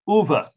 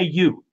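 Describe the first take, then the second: First: The name sounds like 'oo-veh', with two syllables. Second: The name sounds like the English word 'you'. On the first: The speaker calls it right. "it's not you" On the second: The speaker calls it wrong. "Don't say you"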